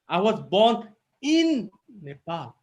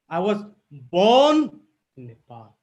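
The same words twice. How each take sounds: First: The stress falls on the word in. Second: The stress falls on the word born. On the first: The birth was inside the country, not outside it. "If I give emphasis in in" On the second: The speaker is a native, not a newcomer. "If I give emphasis here"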